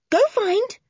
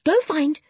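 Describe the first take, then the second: First: Higher, louder urging; excited urging. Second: Urging. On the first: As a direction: egg the dog on harder. Urging the dog on, stronger. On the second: Urging the dog on. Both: Acted.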